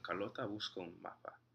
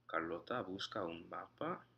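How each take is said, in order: First: The pitch falls at the end. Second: The pitch rises at the end. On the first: It states a fact. "Same thing with" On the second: It asks a question. "The only thing that changes is the intonation"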